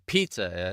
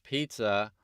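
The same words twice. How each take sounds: First: The opening P is popped out with strong force. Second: The opening P is soft, no louder than the rest. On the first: "unless I pizza it" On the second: "the P is not emphasized"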